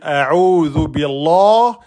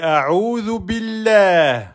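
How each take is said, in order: First: The L in Allah sounds heavy and thick. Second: The L in Allah sounds light and thin. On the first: The speaker calls it wrong. "On va pas dire" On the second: The speaker calls it right. "on va prononcer le nom d'Allah en aminci"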